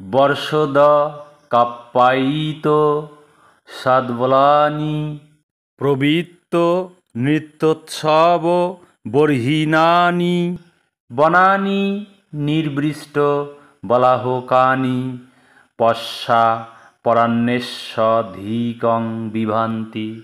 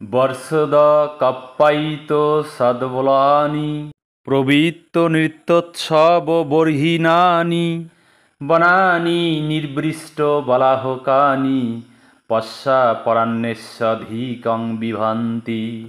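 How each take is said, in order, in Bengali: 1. শ্লোকটি আলাদা আলাদা ভাঙা টুকরোয় উচ্চারিত হচ্ছে। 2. শ্লোকটি একটানা, সাবলীল প্রবাহে উচ্চারিত হচ্ছে।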